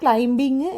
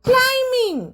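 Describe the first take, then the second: First: A b sound is heard before -ing. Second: The m leads straight into -ing, no b. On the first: The speaker calls it wrong. "ഇങ്ങനെയൊന്നും പറയരുത്" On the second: The speaker calls it right. "എങ്ങനെയാ പറയേണ്ടത്?"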